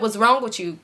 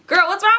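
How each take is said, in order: First: Said in the usual way. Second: Very high, mock-outraged question; exasperated squeal. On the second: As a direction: squeal it at her in playful exasperation.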